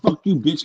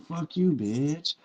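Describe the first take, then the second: First: The line is delivered in a harsh, blunt way. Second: The line is delivered in a smooth, easy way. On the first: The speaker calls it wrong. "instead of saying" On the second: The speaker calls it right. "say it smooth like this"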